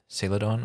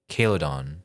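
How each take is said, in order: First: The word begins with a soft S sound. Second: The word begins with a hard K sound.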